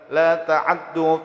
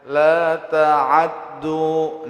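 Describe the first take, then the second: First: A quick, shortened vowel follows the 'ain. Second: A full, complete vowel follows the 'ain. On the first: "fathahnya itu dibaca dengan ikhtilas. Ikhtilas itu hancap" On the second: "itu kamilah ngarannya baris ainnya"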